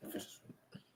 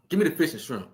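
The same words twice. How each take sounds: First: Breathy whisper of the pick; a soft whispered echo. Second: Said in the usual way. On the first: Real, not acted. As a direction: whisper it to yourself, savoring.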